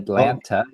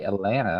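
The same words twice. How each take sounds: First: The second T is clearly pronounced. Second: The second T is silent. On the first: The speaker calls it wrong. "You don't say" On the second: The speaker calls it right. "where the T is silent. You say"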